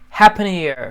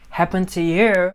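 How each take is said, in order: First: The words are reduced and run together. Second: Each word is said separately and fully.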